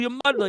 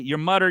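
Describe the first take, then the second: First: It is said with an Italian-American inflection. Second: It is said in a Newfoundland accent. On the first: "they don't say like" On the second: "There's no like Italian inflection on it"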